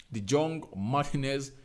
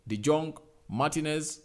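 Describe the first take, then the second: No difference in how they are said.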